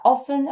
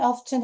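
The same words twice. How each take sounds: First: Said in the usual way. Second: "often" said with the t, off-ten; British-style pronunciation. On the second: Shown as a demonstration. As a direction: let the t be heard in "often". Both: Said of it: "영국식 발음으로 often 이렇게 읽으셔도 돼요".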